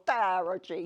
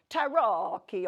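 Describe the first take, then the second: First: Attempted Italian. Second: Loud Italian tarocchi, hard k; attempted Italian. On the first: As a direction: say "tarocchi" as "TA-ro-jee" in a hammed-up Italian accent. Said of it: "figure out what they call". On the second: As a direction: say "tarocchi" in a big, hammed-up Italian accent with a k sound. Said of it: "in I-, Italian". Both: Shown as a demonstration.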